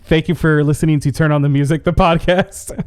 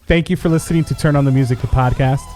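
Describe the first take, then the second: First: It is said in a joking, laughing manner. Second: It is said in a serious, straight manner.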